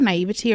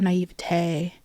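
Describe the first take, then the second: First: The word ends with a 'tee' sound. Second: The word ends with a 'tay' sound.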